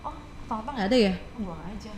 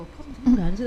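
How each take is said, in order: First: Casual, then dropping away; careless shrug. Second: A touch louder, baffled; mild retold surprise; shocked question. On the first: Retold or imitated. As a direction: shrug it off like a newcomer. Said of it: "orang-orang yang baru gini". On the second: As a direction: ask it like you can't believe it. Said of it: "kagetnya seperti itu".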